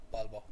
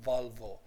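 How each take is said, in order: First: "Volvo" pronounced "Bolbo"; Spanish b for v. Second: "Volvo" with two clear v sounds; English v sound. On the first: Teacher imitating Spanish students' mistake, b sounds in "Volvo". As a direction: make both v's in "Volvo" into b's. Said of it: "sometimes Spanish students will say". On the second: Teacher repeating the English model, clear v's in "Volvo". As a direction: say "Volvo" with teeth on lip for each v. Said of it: "We say Volvo". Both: Shown as a demonstration.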